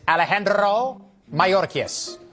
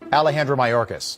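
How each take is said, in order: First: The name is said with a Hispanic accent. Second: The name is said with a plain American accent. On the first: The speaker calls it wrong. "But on C N N, it's Alejandro Mayorkas" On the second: The speaker calls it right. "I just say Alejandro Mayorkas"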